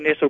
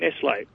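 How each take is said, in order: First: It is the common English-speaking pronunciation. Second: It is the pronunciation used in Switzerland. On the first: "I've heard people say Nestle before" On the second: "when I see them in Switzerland, they say Nestle"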